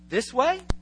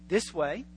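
First: It is said as a clear, open question. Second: It is said hesitantly, with little certainty. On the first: The person is asking which direction to take. "There's a real question mark" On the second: The person is not sure of the direction. "Not too sure"

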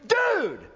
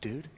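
First: The word is said with excitement. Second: The word is said with fear. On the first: The speaker is thrilled. "used in such a way that communicates excitement" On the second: The speaker is frightened. "used to communicate fear"

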